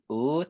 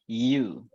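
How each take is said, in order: First: The letter is named with an Indonesian vowel sound. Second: The letter is named with an English vowel sound. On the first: The speaker calls it wrong. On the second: The speaker calls it right. "tapi U"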